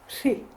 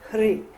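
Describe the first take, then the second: First: The syllable begins with a sh sound. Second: The syllable begins with a plain h sound. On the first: The speaker calls it right. "as they pronounce it in Tibetan" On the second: The speaker calls it wrong.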